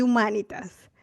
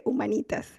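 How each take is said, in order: First: Humanitas stressed on the MA; other people's pronunciation. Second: Humanitas stressed on the NI; own usual pronunciation. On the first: Telling how many people say it, humanitas with earlier stress. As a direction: say humanitas as hu-MÁ-ni-tas. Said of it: "pero mucha gente dice". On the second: Telling how she always said it, humanitas with later stress. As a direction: say humanitas as hu-ma-NÍ-tas. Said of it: "yo siempre dije". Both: Shown as a demonstration.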